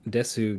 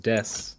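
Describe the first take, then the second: First: The final u vowel is clearly pronounced. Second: The final u vowel is dropped entirely.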